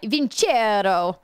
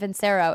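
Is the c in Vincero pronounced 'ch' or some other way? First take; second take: ch; other. First: The c is pronounced as 'ch'. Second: The c is not pronounced as 'ch'. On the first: The speaker calls it right. "I almost said that wrong" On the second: The speaker calls it wrong. "I kept saying Vincero"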